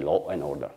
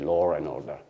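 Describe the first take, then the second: First: No R sound links law and and. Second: An R sound links law and and. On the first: "They don't say law and order" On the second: "they say law and order in Britain"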